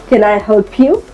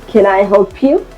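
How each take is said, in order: No difference in how they are said.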